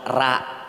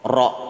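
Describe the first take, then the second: First: The letter is said with a light, thin sound. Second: The letter is said with a heavy, thick sound. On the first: The speaker calls it wrong. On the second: The speaker calls it right.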